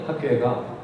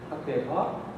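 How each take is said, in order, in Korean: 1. 평범한 평서문 억양으로 말했습니다. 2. 질문하는 억양으로 말했습니다. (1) "너 어디 가니?" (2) "이거는 뭐 의문문이 맞죠?"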